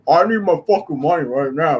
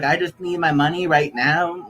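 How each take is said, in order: First: It is said in a put-on Tyrone voice. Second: It is said in a put-on gay voice.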